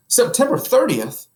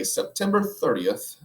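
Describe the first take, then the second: First: Much higher, loud excited question; a husband suddenly remembering the date. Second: Said in the usual way. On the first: Acted. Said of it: "in an excited tone".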